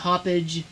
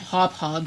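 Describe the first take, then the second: First: The name ends with a 'page' sound. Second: The name ends with a 'hog' sound. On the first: "I'm going to pronounce it my way" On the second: "Hop Hog sounds stupid"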